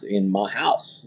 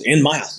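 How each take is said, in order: First: "in my house" said softer and slowly, low; quiet slow emphasis. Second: Said in the usual way. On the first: Real, not acted. Rancher stressing that the guys came into his home, quiet slow emphasis. Repeating for weight.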